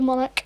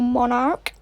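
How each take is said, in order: First: It is said with a non-American accent. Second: It is said with an American accent. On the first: "But here we say the Monarch" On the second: "as Americans, they always say Monarch"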